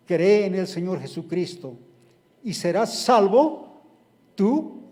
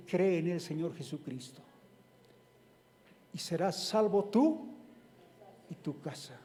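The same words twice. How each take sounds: First: Louder, emphatic proclamation; proclaiming. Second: Softer, gentle restatement; quiet repeat. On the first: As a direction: declare it with conviction. Preacher proclaims the verse. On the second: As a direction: let it land softly. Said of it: "same verse repeated softly". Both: Acted.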